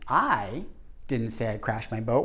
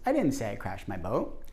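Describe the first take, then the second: First: The stress is on the word I. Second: The stress is on the word say.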